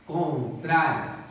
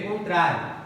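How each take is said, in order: First: Contrário drawn out slowly, the -trá- leaned on; slow stressed demo. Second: Said in the usual way. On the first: Shown as a demonstration. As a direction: stretch Contrário, hitting -trá-. (Contrário bem lento, com ênfase em trá) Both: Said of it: "Paroxítona".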